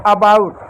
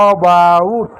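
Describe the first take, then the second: First: अबाउट with a short अ at the start; pronouncing about. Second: अबाउट said lower, a short अ sound at the start; pronouncing about again. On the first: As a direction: say अबाउट as uh-bout. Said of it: "अबाउट में इस ए को हमने अ पढ़ा". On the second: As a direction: model अबाउट as uh-bout, clearly. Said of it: "क्या पढ़ा?". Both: Shown as a demonstration.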